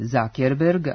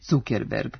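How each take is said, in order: First: The first part is said the English way. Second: The first part is said the German way. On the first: The speaker calls it right. "Vlasnik kompanije Meta preziva se Zuckerberg" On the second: The speaker calls it wrong. "a ne Zuckerberg, kako se može ponekad pročitati na internet portalima"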